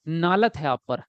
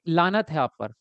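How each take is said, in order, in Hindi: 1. पहला शब्द N ध्वनि से शुरू होता है। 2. पहला शब्द L ध्वनि से शुरू होता है। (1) "कोई कोई बोलता है लानत को नालत है आप पर" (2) "जैसे कि आप बोलते हैं कि लानत है आप पर"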